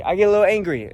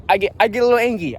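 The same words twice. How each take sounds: First: Said in the usual way. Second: "angry" said as "angy", dropping the R; angry without R. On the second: Real, not acted. Traveler admitting his temper, "angry" slipping into "angy". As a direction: drop the R in "angry". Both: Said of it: "Ang-, angry, whatever".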